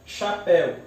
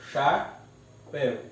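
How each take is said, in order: First: Said in the usual way. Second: "chapéu" slowly split into cha, péu; syllable by syllable. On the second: Shown as a demonstration. Teacher separates an example word, "chapéu" syllable by syllable. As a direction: leave a clear gap inside "chapéu". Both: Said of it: "eu separo".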